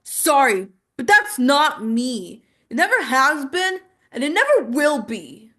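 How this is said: It is said with a defiant, dismissive attitude. "Totally different energy there"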